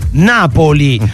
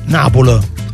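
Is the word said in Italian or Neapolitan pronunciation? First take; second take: Italian; Neapolitan. First: The word is said with a standard Italian pronunciation. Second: The word is said with a Neapolitan pronunciation. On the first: The speaker calls it right. "deve essere pronunciata così" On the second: The speaker calls it wrong. "deve essere in italiano e non Napoli"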